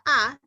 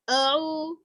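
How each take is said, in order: First: The vowel is a fully open 'a'. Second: The vowel is a half-closed 'eu'. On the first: The speaker calls it right. "Jadi harusnya ya a" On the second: The speaker calls it wrong. "jangan eu"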